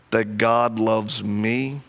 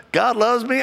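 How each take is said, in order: First: Slow, low, earnest admission; slow, halting confession of doubt; slow and sincere. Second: High, bright-eyed mock of wife's easy certainty; mock happy wife, higher; imitating his wife. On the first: Real, not acted. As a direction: let each word land slowly, heavy with doubt. His own slow struggle to believe. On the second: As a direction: toss it off high and carefree, as his wife would.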